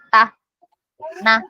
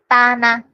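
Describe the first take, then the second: First: The two syllables are split by a pause. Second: The two syllables are joined without a pause. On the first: The speaker calls it wrong. "tidak boleh membacanya" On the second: The speaker calls it right. "Tapi tanah"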